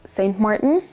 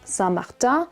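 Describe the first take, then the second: First: The name is said with English pronunciation. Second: The name is said with French pronunciation.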